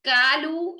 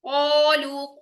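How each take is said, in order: First: The first vowel is a thin 'a' sound. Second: A heavy 'o' sound is held to the end. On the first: The speaker calls it wrong. "कालू ये भी गलत है" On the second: The speaker calls it right. "कोलू को एंड तक को"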